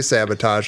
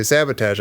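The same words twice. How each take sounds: First: "sabotage" ending in a broad AH, sabba-TAHZH; rejected pronunciation. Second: "sabotage" with a short flat A, sabba-TAZH; insisted-on pronunciation. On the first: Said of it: "No, I don't say sabotage". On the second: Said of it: "I say sabotage". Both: Retold or imitated.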